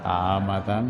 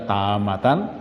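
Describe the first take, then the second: First: The word ends with an 'an' sound. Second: The same.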